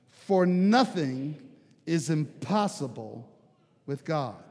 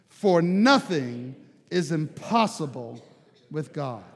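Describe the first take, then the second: First: It is said calmly and plainly. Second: It is said with forceful conviction.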